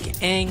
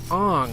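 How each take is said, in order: First: The name is said the original way. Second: The name is said the altered way. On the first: The speaker calls it right. "the names are like Aang" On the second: The speaker calls it wrong. "They call him Ong"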